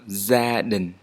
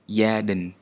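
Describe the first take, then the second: First: The first consonant sounds like English z. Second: The first consonant sounds like English y.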